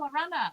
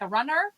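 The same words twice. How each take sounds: First: Runner is said with an English accent. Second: Runner is said with an American accent.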